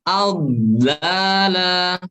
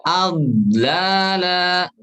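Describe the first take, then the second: The two takes are said the same way.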